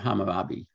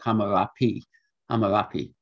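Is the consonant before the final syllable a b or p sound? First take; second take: b; p. First: The consonant before the last syllable is b. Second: The consonant before the last syllable is p. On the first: This is the form usually given in modern languages. The speaker calls it wrong. "not Hammurabi" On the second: This form has a good Semitic etymology. The speaker calls it right. "It may have been a P, and a lot of people think it was a P"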